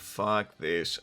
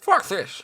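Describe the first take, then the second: First: It is said in a normal speaking voice. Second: It is said in an imitated character voice.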